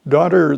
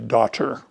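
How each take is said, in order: First: The T is a soft flap, like a D. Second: The T is a crisp, fully released T. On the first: "the flap sound of the last T in that word is a very strong one" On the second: "It's rare to hear somebody say daughter"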